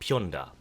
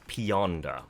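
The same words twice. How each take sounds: First: The name is said the local way. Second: The name is said the foreign way.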